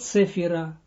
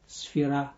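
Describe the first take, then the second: First: A vowel separates the s and f sounds. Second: The s and f sounds run together directly. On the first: The speaker calls it wrong. "not in English like they translate it, like they pronounce it in English" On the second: The speaker calls it right. "but sfira"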